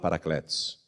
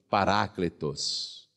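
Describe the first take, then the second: First: It is pronounced the Brazilian Portuguese way. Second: It is pronounced the original Greek way. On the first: "que a gente aqui no Brasil fala Paracletos" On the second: "No original grego está escrito Paráclitos"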